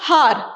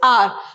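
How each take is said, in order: First: The word begins with an h sound. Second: The word begins with a vowel sound. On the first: The speaker calls it wrong. "we don't pronounce this word as" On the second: The speaker calls it right. "It is"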